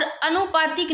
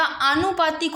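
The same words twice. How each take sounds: First: "अनुपातिक" with short opening a; rejected pronunciation. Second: "आनुपातिक" slow, long opening aa; corrected pronunciation. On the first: Teacher showing the error, "अनुपातिक" with short first a. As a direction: clip the first vowel of "अनुपातिक". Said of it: "अनुपातिक नहीं होता". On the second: Teacher giving the correction, "आनुपातिक" slowly with long aa. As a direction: stretch the first aa of "आनुपातिक". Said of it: "आनुपातिक होता है". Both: Shown as a demonstration.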